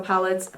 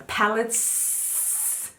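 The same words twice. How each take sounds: First: Said in the usual way. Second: "Palettes" with a long, hissed final S; stressed plural S. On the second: Shown as a demonstration. Correcting herself to show there are several, "Palettes" with a long hissing S. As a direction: draw out the S at the end of "Palettes".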